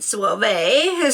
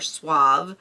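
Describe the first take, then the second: First: The word is pronounced in a fancy, affected way. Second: The word is pronounced in a plain, ordinary way.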